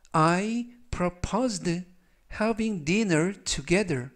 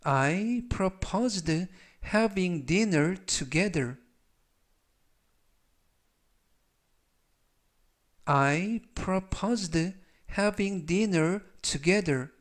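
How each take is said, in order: First: Very slow, word by word; 아주 천천히 또박또박 읽기; slow reading. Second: Very slow, smooth and clear; 아주 천천히 매끄럽게 읽기; slow reading. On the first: (따라 하도록 천천히 끊어 읽기) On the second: (따라 하도록 천천히 이어 읽기) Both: Shown as a demonstration. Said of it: "천천히 세 번씩 읽어드리고요".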